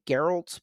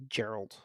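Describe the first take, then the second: First: "Geralt" with a hard G, as in get; Western hard G. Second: "Gerald" with a soft J sound at the start; Eastern soft G. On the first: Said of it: "on the West we'd say". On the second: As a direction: say "Gerald" low, with a J opening. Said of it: "on the East, they'd say". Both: Shown as a demonstration.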